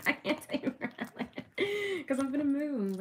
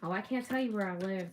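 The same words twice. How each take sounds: First: Laughing through words. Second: Said in the usual way. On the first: Real, not acted. Vlogger to viewers about moving, laughing through it. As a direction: speak through leftover giggles. Still laughing after slip.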